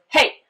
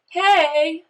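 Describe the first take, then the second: First: Short, loud, high "Hey"; "Hey" cut short and punched; HEY clipped off. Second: "Hey" drawn out, high and loud; stretched, lifted "Hey"; HEY bent upward. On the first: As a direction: clip "Hey" off sharply, like a command. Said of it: "I can clip it off". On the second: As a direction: bend "Hey" up in a long, friendly call. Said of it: "I've bent that word up". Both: Shown as a demonstration.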